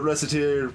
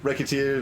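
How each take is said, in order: First: It sounds like the words reset and tier. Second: It sounds like the word racketeer. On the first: "a pun on reset and tier" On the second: "and racketeer"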